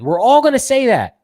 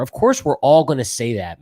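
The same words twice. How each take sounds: First: Higher and louder, punching ALL; emphatic repeat. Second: Said in the usual way. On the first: Real, not acted. Host insisting that all fans will say that, emphatic and loud. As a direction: hit "all" hard and high.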